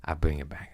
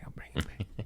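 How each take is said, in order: First: Said in the usual way. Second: Whispered, no voice at all. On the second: Shown as a demonstration. Whispering a promise to the host to steer it back. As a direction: drop to a breathy whisper on the repeat.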